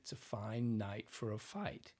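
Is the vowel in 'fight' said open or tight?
open. The vowel in 'fight' is open and wide.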